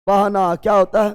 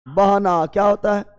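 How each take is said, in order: Both takes have the same delivery.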